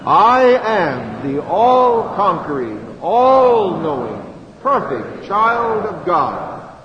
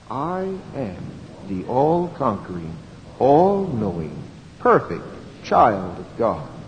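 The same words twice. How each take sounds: First: It is said in a full, loud voice. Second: It is said in a very soft voice.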